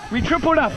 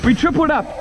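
Both takes have the same delivery.

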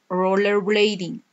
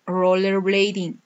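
Both takes have the same delivery.

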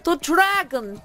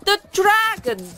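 First: High, loud cry of alarm; terrified shout from the crowd; panicked crowd shout. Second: Even higher, louder panicked scream; the crowd shrieks in terror; shrieking crowd. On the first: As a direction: scream it to warn the whole town. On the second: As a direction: cry out as the fear peaks. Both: Acted. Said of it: "a crowd of people shouting and crying".

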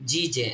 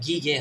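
First: জি জে with a J sound, drawn out; correct soft G. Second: গি গে with a hard G as in "go"; wrong hard G. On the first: Teacher showing G with E, slow soft-G syllables. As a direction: sound out জি জে slowly, both starting like J. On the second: Teacher warning against a wrong reading, hard-G syllables. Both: Shown as a demonstration. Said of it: "এখানে গি গে হবে না".

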